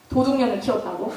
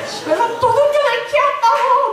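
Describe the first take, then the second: First: Said in the usual way. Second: Mock loud wailing. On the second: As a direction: wail it so the whole house hears. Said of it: "막 들으라고 막 울어요". (들으라는 듯 높게 울부짖는 엄마 흉내)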